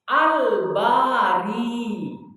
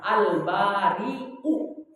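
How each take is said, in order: First: The word ends with a long i vowel. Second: The word ends with a glottal stop and u. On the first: "huruf akhirannya adalah huruf ya yang mati" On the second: "kemudian berakhiran hamzah"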